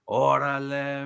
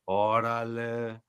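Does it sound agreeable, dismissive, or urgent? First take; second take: agreeable; dismissive. First: It sounds agreeable and approving. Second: It sounds dismissive and disbelieving.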